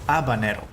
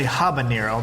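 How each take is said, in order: First: The word begins with no H sound. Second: The word begins with an audible H sound. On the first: "in Spanish, you would say habanero. You don't pronounce H" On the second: "in English, you say habanero because we have we actually pronounce the H"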